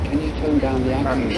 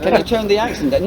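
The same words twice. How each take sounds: First: Said in the usual way. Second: Exaggerated mock director. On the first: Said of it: "they said". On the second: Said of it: "I was just exaggerating there".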